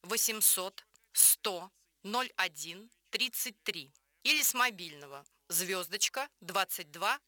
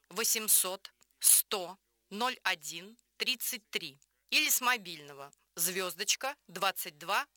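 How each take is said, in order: Both takes have the same delivery.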